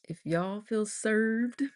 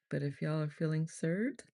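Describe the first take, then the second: First: Slow, higher country drawl; playfully drawn-out country accent. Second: Said in the usual way. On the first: Pretend. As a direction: lean into a thick country twang. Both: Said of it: "I'm not gonna do a thick country accent".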